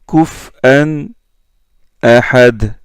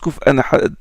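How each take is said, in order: First: There is a short pause between the two words. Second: The two words run together without a pause. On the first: "il marque une pause" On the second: "comme Yaqub et Khalaf"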